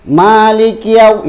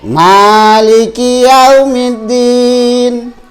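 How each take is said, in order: First: The letters are rushed and clipped short. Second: Each letter is held for one full beat. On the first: The speaker calls it wrong. "itu salah" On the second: The speaker calls it right. "itu satu harkat, satu huruf"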